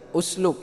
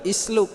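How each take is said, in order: First: The word begins with a u vowel. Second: The word begins with an i vowel. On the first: The speaker calls it right. "usluk yang benar" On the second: The speaker calls it wrong. "atau isluk"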